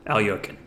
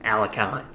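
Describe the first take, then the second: First: Alyoshin said with a "yo" middle; original name pronunciation. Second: Alekhine said AL-uh-kine, ending like "kine"; American pronunciation. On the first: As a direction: say Alyoshin the Russian way, stressed on YO. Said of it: "or as most Americans say". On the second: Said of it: "as most Americans say". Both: Shown as a demonstration.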